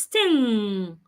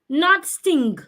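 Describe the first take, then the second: First: It ends in ng with no hard g. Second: It ends with an audible hard g sound. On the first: The speaker calls it right. "It's sting" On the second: The speaker calls it wrong.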